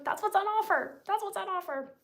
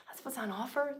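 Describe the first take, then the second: First: Much higher, sing-song "That's what's on offer"; playful high voice. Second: Said in the usual way. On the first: Shown as a demonstration. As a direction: tease it up high.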